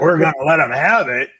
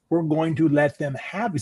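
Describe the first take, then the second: First: It is said in a tough, threatening tone. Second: It is said in a mild, generous tone.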